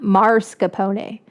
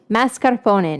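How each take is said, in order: First: The first syllable has an r sound. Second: The first syllable has no r sound. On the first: The speaker calls it wrong. "not marscarpone" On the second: The speaker calls it right. "Mascarpone, not marscarpone"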